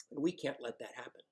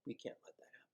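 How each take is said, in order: First: Said in the usual way. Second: Whispered repeat under the breath. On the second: Real, not acted. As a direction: breathe it again as a hushed secret. Repeats line then whispers.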